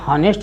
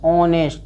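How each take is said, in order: First: The word starts with an audible h sound. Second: The word starts with a vowel, no h sound. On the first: The speaker calls it wrong. "हॉनेस्ट नहीं बोलना है इसको" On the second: The speaker calls it right. "ऑनेस्ट बोलना है"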